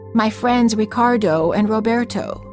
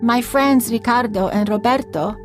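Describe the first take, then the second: First: It is said with an American accent. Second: It is said with a native Spanish accent.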